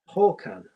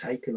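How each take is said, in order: First: The first syllable sounds like 'hawk'. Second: The first syllable does not sound like 'hawk'. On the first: The speaker calls it right. "like a hawk" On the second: The speaker calls it wrong. "everybody says Haken or Harken"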